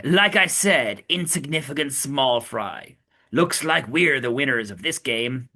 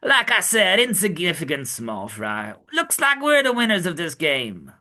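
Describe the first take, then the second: First: Plain character read. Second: Put-on mild Brooklyn accent for Sanji; a light Brooklyn tough-guy read. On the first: Acted. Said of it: "forgot my Brooklyn accent for Sanji". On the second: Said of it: "my Brooklyn accent for Sanji".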